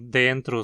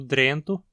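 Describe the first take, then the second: First: The R sounds in the last syllable, after T. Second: The R sounds in the first syllable, after D.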